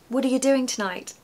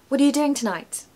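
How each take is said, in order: No difference in how they are said.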